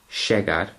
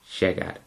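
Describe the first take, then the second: First: The 'll' is a strong, full 'sh' sound. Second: The 'll' is a faint, softened 'sh' sound. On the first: The speaker calls it wrong. "rather than saying llegar" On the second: The speaker calls it right. "take the sh down a level... ever so faintly"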